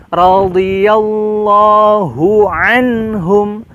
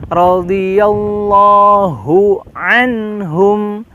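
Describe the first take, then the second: Both takes have the same delivery.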